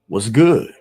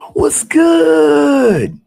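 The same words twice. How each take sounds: First: It sounds angry and confrontational. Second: It sounds very excited and eager.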